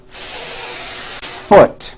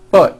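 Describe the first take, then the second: First: FOOT with the F hissed for a full beat first; long held F. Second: FOOT with a very short, barely audible F; FOOT with hardly any air friction on the F; too-short F. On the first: Teacher showing the fix, long exaggerated F in FOOT. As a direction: stretch the airy F, then pop out FOOT. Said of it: "Hold the F sound for the first full beat". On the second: Teacher imitating learners' mistake, short weak F in FOOT. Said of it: "keep the F very short". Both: Shown as a demonstration.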